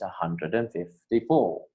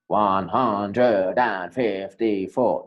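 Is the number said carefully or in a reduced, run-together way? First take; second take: reduced; careful. First: The words are reduced and run smoothly together. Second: Every word is said fully, stressing fifty-four. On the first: The speaker calls it right. "usually we reduce it" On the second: The speaker calls it wrong. "it's not"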